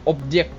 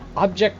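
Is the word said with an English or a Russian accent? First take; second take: Russian; English. First: It is said with a Russian-sounding accent. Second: It is said with a plain English accent.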